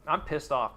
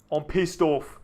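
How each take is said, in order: First: Said in the usual way. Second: Mock angry.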